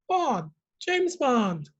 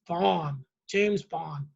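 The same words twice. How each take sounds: First: It is said in an ordinary speaking voice. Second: It is said in a deeper, lower voice.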